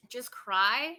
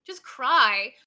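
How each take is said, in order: First: A questioning read of chat, rising at the end; puzzled question. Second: Much louder, incredulous repeat; loud disbelief. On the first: Reading a viewer's chat aloud, puzzled. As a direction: ask it back, unsure. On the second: Rereading a viewer's chat in loud mock outrage. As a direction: throw the question back in loud disbelief. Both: Real, not acted.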